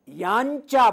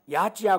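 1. नासिक्य ध्वनि च ध्वनि से पहले आती है। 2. नासिक्य ध्वनि च ध्वनि के बाद आती है।

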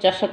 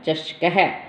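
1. शब्द के अंत में हल्की साँस वाली 'ah' नहीं है। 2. शब्द के अंत में हल्की साँस वाली 'ah' है। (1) "कई बच्चे इसको चषक बोलते हैं, अह की आवाज़ नहीं आती" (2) "तो क्या है इसका उच्चारण"

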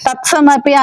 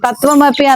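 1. v శబ్దం పోతుంది, కాబట్టి ts వస్తుంది. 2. s శబ్దం పోతుంది, కాబట్టి tv వస్తుంది. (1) "తత్సమపి అన్నాం అనుకోండి వావత్తు పోతుంది" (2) "తత్వమపి అన్నాం అనుకోండి సావత్తు పోతుంది"

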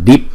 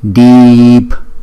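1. Nguyên âm được đọc ngắn. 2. Nguyên âm được kéo dài. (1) "chúng ta không phải đọc là deep" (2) "bởi vì chữ y này là chữ y dài"

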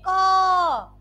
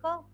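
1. यह अक्षर बहुत ज़ोर से बोला जाता है। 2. यह अक्षर बहुत धीरे से बोला जाता है। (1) "बहुत तेज बोलोगे" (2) "बिल्कुल साइलेंटली बोलोगे"

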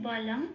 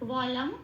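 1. এটি ঠোঁট চেপে তৈরি একটি b দিয়ে শুরু। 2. এটি খোলা ঠোঁটে তৈরি একটি w দিয়ে শুরু। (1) "এটা বাংলায় বললাম" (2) "এটা একদম ঠোঁট খুলে উচ্চারণ হবে ওয়া"

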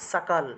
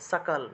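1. শব্দটি স্পষ্ট 's' ধ্বনি দিয়ে শুরু হয়। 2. শব্দটি স্পষ্ট 's' ধ্বনি দিয়ে শুরু হয়।

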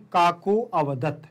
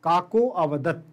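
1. 'vadat' से पहले का स्वर साफ़ बोला गया है। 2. 'vadat' से पहले का स्वर साफ़ बोला गया है।

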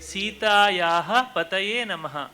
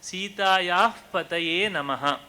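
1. ವಿಸರ್ಗವನ್ನು ಪ್ರತ್ಯೇಕ h ಎಂದು ಉಚ್ಚರಿಸಲಾಗುತ್ತದೆ. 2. ವಿಸರ್ಗದ ನಂತರದ ವ್ಯಂಜನವನ್ನು ಒತ್ತಿ, ದ್ವಿಗುಣಗೊಳಿಸಿ ಉಚ್ಚರಿಸಲಾಗುತ್ತದೆ. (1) "ಹೇಳುವುದರ ಬದಲಿಗೆ" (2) "ಶ್ಲೋಕ ಹೇಳುವಾಗ"

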